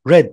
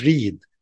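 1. تُنطق بنطق الماضي. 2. تُنطق بنطق المضارع. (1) "شفت انا ضربتها ازاي؟ read مش read" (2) "لو كنت قلت read كنت المفروض قلت احمد reads يبقى مضارع"

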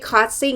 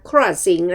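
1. กลุ่มพยัญชนะต้นไม่ออกเสียง r 2. กลุ่มพยัญชนะต้นมีเสียง r ที่ชัดเจน (1) "ไม่ใช่" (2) "นะคะ"

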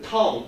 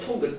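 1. 단어는 ng 소리로 끝납니다. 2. 단어 끝에 g 소리가 분명히 들립니다. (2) "통그 아니에요?"

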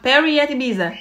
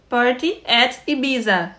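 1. As palavras saem juntas e rápido, o t quase some. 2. Cada palavra é dita separada, com um t bem claro. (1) "alguém me ensinou a falar rápido" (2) "eu falava assim, party"

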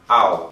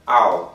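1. É dito como uma sílaba contraída. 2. É dito como uma sílaba contraída.

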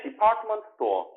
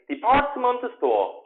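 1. 이 표현은 빠르게 말해요. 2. 이 표현은 천천히 말해요.

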